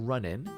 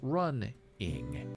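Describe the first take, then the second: First: The word ends with an 'n' sound. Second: The word ends with an 'ng' sound. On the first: "say an I N instead of I N G" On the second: "some people have said ing, I N G, on the end of words"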